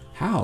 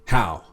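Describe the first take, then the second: First: It sounds curious and intrigued, like a real question. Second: It sounds doubtful and challenging, like a flat statement.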